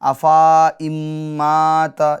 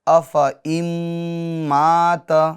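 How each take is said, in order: First: A long a vowel is sounded after the f. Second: No long vowel is sounded after the f. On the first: The speaker calls it wrong. "ये गलत हो जाएगा" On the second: The speaker calls it right. "इसको नहीं पढ़ेंगे"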